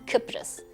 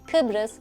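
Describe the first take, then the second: First: The middle consonant is pronounced as p. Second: The middle consonant is pronounced as b. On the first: This is the Cypriot dialect pronunciation. "b's that turn into p's" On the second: This is the standard Turkish pronunciation. "b's that turn into p's"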